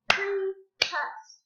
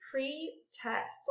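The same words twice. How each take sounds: First: "Pre-test" higher, in two separate beats; clapped syllables. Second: Said in the usual way. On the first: Shown as a demonstration. Teacher clapping out a word for pupils, syllable by syllable. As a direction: break "Pre-test" into pre, pause, test. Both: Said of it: "Let's clap it out".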